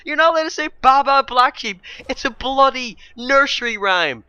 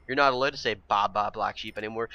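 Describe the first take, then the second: First: High, loud incredulous shout; real rant boiling over, pitched right up; carried-away outrage. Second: Said in the usual way. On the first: Real, not acted. Vlogger ranting about a banned nursery rhyme, loudly outraged. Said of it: "sorry, I'm getting carried away again".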